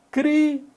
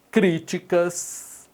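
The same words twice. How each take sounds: First: Críticas jumps high and punches the first syllable; high, stressed example word. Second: Críticas stretched out syllable by syllable; slow, drawn-out example word. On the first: Teacher calling out Críticas high to check its stress. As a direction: fire Críticas out high and sharp. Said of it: "teacher rereads example word to check it". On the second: Teacher reading críticas out slowly for the class. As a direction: draw out críticas slowly so students hear each syllable. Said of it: "teacher reads example word slowly". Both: Shown as a demonstration.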